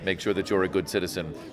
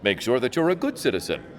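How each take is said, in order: First: It is said in a flat, deadpan robotic way. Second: It is said in a lively, expressive way. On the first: The speaker calls it wrong. "we did it initially as a straight robot" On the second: The speaker calls it right. "You have to make it fun"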